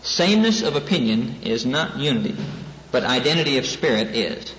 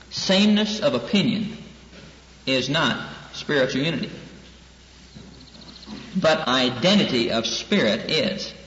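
First: Said in the usual way. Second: Deliberate phrase-by-phrase emphasis on "Sameness of opinion" and "identity of spirit"; emphatic repetition. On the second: Real, not acted. Repeats the important point for emphasis.

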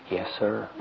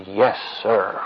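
First: Put-on small, hushed child's reply; soft voice. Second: Imitated child answering up properly; clear, audible reply. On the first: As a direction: answer meekly, very softly. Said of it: "in a real soft voice". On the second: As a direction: say it firmly enough to be heard. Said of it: "I can't hear you".

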